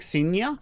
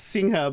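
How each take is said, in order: First: The middle sounds like a Spanish 'ny'. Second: The middle sounds like an 'ng' before 'a'. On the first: The name is read as if it were Spanish. The speaker calls it wrong. "some people think it's Spanish, like Sinya" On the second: The name is said the way its owner says it. The speaker calls it right. "No, no, it's Singha"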